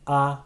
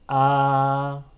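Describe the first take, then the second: First: The vowel is held briefly. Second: The vowel is held for longer. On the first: "first a short" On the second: "then a long version"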